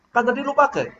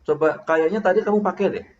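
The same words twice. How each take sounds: First: High-pitched accusing retort; pointed, raised-pitch blame. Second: A tentative, suggesting reminder; just remind, without blaming; softened suggestion, falling at the end; gentle reminder. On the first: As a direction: throw it out as an accusation. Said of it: "Buat saya sih itu nuduh". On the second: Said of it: "Mengingatkan itu". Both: Shown as a demonstration.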